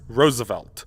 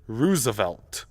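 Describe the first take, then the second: First: The first vowel sounds like the one in rose. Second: The first vowel sounds like the one in room. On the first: "It's pronounced Roosevelt" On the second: "he wanted the O O sound to be like room instead of rose"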